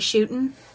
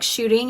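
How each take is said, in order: First: The word is said in a Southern accent. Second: The word is said in a neutral accent. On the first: "he'll say" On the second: "instead of, like"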